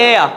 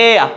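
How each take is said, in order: The two takes are said the same way.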